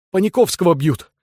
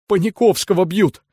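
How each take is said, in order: First: Raised alarmed shout. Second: High, desperate cry. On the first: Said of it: "закричал Балаганов". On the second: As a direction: plead it in despair. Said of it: "с отчаянием повторил рыжий Шура". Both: A narrator's reading.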